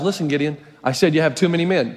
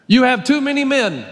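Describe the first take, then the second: First: Lower, patient voice of God. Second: Said in the usual way. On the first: Acted. God correcting Gideon in a lower voice. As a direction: say it as God firmly repeating. God repeats his order.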